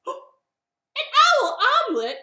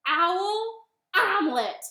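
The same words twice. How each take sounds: First: Very high, loud shocked squawk; horrified owl. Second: Loud, high, drawn-out announcement; bunny's reveal. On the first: Owl learns he's on the menu, horrified cry. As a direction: echo it in loud, hammed-up horror. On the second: Bunny names Gruffalo's favorite food to owl, slow and loud. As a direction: land each word slowly and loudly. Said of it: "And the bunny said". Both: Acted.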